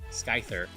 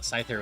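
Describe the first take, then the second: First: It starts with an S followed by K. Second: It starts with a plain S sound.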